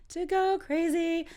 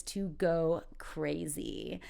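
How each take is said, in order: First: High, slow playful repeat. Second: Said in the usual way. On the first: Shown as a demonstration. Teacher repeats the next phrase for learners, playfully high. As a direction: lift "To go crazy" way up and stretch it.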